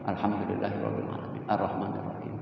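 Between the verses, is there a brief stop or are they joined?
brief stop. The verses are separated by a brief stop. The speaker calls it wrong. "Tidak boleh"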